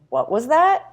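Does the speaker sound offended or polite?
offended. It sounds offended and confrontational, challenging the remark. The listener thinks the remark was rude. "But you're not saying they were rude. Like"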